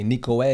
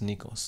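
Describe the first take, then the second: First: The name ends without an s sound. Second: The name ends with an s sound. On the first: The speaker calls it wrong. "you used to say Nikoe" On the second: The speaker calls it right. "the sigma in my name is pronounced like an S"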